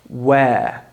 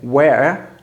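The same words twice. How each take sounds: First: The vowel is left open with no R. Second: The R sound is pronounced after the vowel. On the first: "we just leave it open" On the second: "instead of saying where, in American English"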